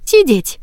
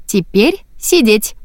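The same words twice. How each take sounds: First: Firm command. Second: Sweet command. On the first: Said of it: "посмотрела ему в глаза и повторила". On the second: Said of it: "милым голоском". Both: A narrator's reading.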